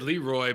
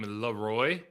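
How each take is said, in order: First: The stress is on the first syllable. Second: The stress is on the second syllable. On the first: This is how the name was said earlier in his career. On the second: This is how the name was said once he became more popular.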